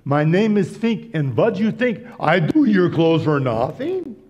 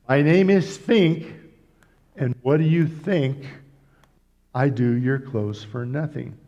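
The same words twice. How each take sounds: First: It ends rising, as a question. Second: It ends falling, as a statement.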